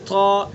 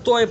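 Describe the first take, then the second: First: A plain long 'aa' vowel follows the t. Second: An 'oy' diphthong follows the t. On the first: The speaker calls it right. "बिल्कुल अलिफ के साथ" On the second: The speaker calls it wrong. "तोय भी गलत"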